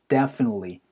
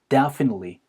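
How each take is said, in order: Both takes have the same delivery.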